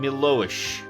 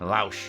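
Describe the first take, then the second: First: The name ends with an 'ish' sound. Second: The name ends without an 'ish' sound. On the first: The speaker calls it wrong. "Why am I doing the ish?" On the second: The speaker calls it right. "There's no ish"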